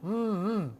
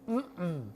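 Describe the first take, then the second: First: The hum sounds like pleased enjoyment. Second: The hum sounds like a firm refusal. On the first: The food tastes delicious. "Mm-mm means that's delicious" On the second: The answer is no. "Mm-mm is no"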